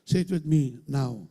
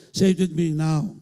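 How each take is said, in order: First: Said in the usual way. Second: Rallying call to repeat; louder repeat prompt. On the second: Shown as a demonstration. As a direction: say it again, louder, urging the crowd.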